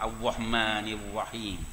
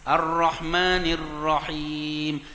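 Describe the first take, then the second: First: The r sound is said like a w. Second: The r sound is said as a clear r. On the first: The speaker calls it wrong. "Ra tu jadi jadi wow pula dah" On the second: The speaker calls it right. "Tok Imam baca molek tau"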